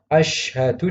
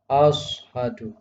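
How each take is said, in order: First: The middle consonant is a 'sh' sound. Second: The middle consonant is a heavy emphatic 's'. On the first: The speaker calls it right. "yang seharusnya asyhadu" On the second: The speaker calls it wrong. "huruf shin menjadi shad ... ini juga salah"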